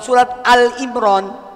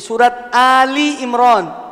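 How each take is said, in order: First: The name is said with 'Al' before 'Imran'. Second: The name is said with 'Ali' before 'Imran'. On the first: The speaker calls it wrong. "bukan surat Al Imran" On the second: The speaker calls it right. "Jadi surat Ali Imran"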